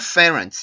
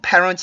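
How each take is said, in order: First: The word begins with an F sound. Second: The word begins with a P sound. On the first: The speaker calls it wrong. "P 발음을 일부러 F로 하는 경우" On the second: The speaker calls it right. "parents 할 때"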